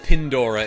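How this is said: The first vowel sounds like the vowel in 'pin'. "That's how they say it, with their Pandoran accent"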